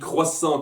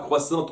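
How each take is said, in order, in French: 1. Le mot finit sans aucun son T. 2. Le mot finit par un son T audible.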